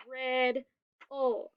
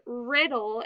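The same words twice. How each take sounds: First: "rid-ol" in two separate beats; split into syllables. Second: Said in the usual way. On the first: Shown as a demonstration. Teacher clapping out a word for pupils, split into syllables. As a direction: clap out "rid-ol" with a clear gap between syllables. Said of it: "we clap it". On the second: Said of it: "and we clap it".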